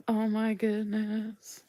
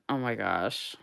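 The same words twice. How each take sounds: First: Excited squeal. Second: Said in the usual way. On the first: Real, not acted. Gushing over doll stickers.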